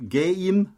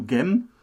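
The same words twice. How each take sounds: First: Said in the usual way. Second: "Gem" with one short vowel; one-syllable contraction. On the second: Shown as a demonstration. Showing a chat reduction, "Gem" as one short syllable. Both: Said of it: "einer einzigen Silbe".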